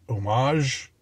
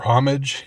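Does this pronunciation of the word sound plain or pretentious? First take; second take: pretentious; plain. First: The word is pronounced in a fancier, pretentious way. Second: The word is pronounced in a plainer, unpretentious way.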